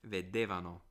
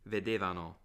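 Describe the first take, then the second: Both takes have the same delivery.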